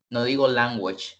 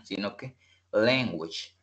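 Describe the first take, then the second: First: "language" with a plain A vowel, as spelt; wrong language. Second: "language" said as "leng-gwich", with an E sound; correct language. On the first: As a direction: show the wrong reading of "language". ("language" mal pronunciado con A) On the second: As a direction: model the right vowel in "language". ("language" dicho como con E) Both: Shown as a demonstration.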